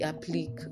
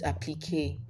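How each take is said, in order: First: The word ends without a 'kay' sound. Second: The word ends with a 'kay' sound. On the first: The speaker calls it wrong. "A lot of people say applique" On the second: The speaker calls it right. "It's also a French word, so it's pronounced applique"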